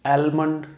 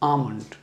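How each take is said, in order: First: The L sound is clearly pronounced in the word. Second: The L sound is left out of the word. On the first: The speaker calls it wrong. "इसको कई लोग एलमंड या आलमंड कहते हैं।" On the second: The speaker calls it right. "इस एल को हम बोलेंगे नहीं"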